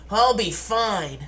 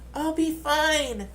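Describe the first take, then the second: First: It is said in a normal-pitched voice. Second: It is said in a high-pitched voice.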